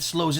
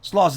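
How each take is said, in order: First: The vowel sounds like the one in 'slow'. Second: The vowel sounds like the one in 'sloth'. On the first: The speaker calls it wrong. "excuse me" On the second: The speaker calls it right. "pronounced like sloth"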